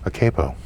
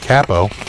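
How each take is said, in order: First: Capo is said with an American pronunciation. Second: Capo is said with a non-American pronunciation.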